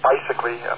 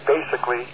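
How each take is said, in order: First: The first syllable sounds like 'bye'. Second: The first syllable sounds like 'bay'. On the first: The speaker calls it wrong. "not bicycly" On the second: The speaker calls it right. "You might want to pronounce it basically"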